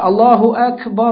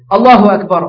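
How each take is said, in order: First: The phrase is said slowly with long, drawn-out vowels. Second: The phrase is said quickly with short vowels. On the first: It is the call to prayer. "Tarasul mana kita baca dengan panjang" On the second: It is the call that starts the prayer. "Kena qamat ni ialah baca cepat"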